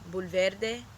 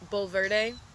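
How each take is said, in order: First: The name is said with its original-language sounds. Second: The name is said with American English sounds. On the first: This is how it should strictly be said. "it would actually be pronounced like Bulverde" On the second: This is how locals say it. "America, we know how it is"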